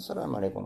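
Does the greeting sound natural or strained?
natural. The greeting sounds relaxed and natural. The speaker calls it right. "естественно, без всякого напряжения"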